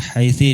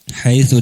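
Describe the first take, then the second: First: The word ends with an i vowel. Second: The word ends with an u vowel. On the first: "dengan kasrah" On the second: "dengan dhamma"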